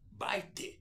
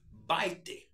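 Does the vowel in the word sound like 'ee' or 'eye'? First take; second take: eye; eye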